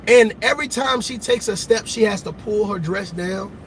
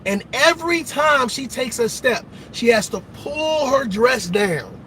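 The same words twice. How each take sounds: First: It is said at a normal pace. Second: It is said slowly and deliberately.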